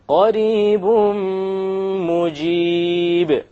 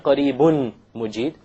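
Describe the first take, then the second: First: The n sound merges into the nasal m. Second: The n sound is pronounced clearly before m. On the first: The speaker calls it right. "So we drop the end sound" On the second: The speaker calls it wrong. "We don't say"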